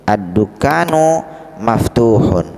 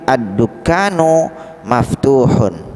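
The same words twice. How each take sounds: No difference in how they are said.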